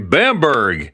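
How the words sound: It is said with an American pronunciation. The speaker calls it wrong. "Americans would say Bamberg"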